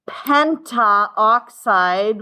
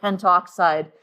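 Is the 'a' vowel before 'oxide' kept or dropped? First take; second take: kept; dropped. First: The a vowel is kept before oxide. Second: The a vowel is dropped before oxide. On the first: The speaker calls it wrong. "we don't do that" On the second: The speaker calls it right. "We just call it pentoxide"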